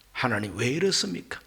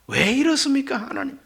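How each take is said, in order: First: Low, soft questioning of God; subdued protest. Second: High-pitched pleading protest to God; raised protest. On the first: Job asks God why he suffers, in a low subdued protest. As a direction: protest quietly, voice dropped. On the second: Job asks God why once more, in a high-pitched protest. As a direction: lift the voice into an appeal. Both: Acted. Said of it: "이것이 바로 항변입니다".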